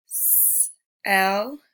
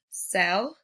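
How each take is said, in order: First: "s-, el" with a long hissed s, then el apart; sounded out. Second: Said in the usual way. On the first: Shown as a demonstration. Teacher showing pupils C making the S sound, sounded out. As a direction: split "s-, el" into held s and el. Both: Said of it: "like in the word".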